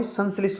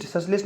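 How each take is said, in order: First: संश्लिष्ट with clear "san" first; correct pronunciation. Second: ससलिस्ट with no nasal n; wrong pronunciation. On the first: Teacher corrects it for students, careful pronunciation. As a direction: say संश्लिष्ट with the n sounded. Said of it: "संश्लिष्ट होता है". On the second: Teacher shows students the error, mispronounced. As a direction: say ससलिस्ट as "sas-list". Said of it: "ससलिस्ट नहीं होगा भाई". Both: Shown as a demonstration.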